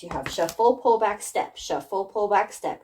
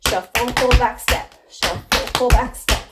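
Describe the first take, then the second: First: Said in the usual way. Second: Louder, higher step calls over the music; called-out steps. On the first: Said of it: "they should look like this". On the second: Shown as a demonstration. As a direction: shout the cues out while dancing. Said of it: "So faster".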